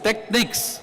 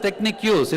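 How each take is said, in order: First: The word ends with no added syllable. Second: The word ends with an added 'use' syllable. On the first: The speaker calls it right. "It's techniques" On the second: The speaker calls it wrong. "Don't pronounce it as technique use"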